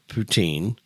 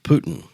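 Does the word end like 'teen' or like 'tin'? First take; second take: teen; tin. First: The word ends in a long 'teen' sound. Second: The word ends in a short 'tin' sound. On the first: The speaker calls it right. "a lot of people pronounce it uh" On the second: The speaker calls it wrong. "some people pronounce it Putin"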